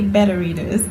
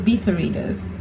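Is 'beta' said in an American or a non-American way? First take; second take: American; non-American. First: Beta is said in an American way. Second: Beta is said in a non-American way. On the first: "Americans say better readers" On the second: "beta, like alpha and beta"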